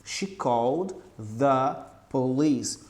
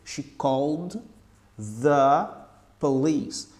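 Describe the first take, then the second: Both takes have the same delivery.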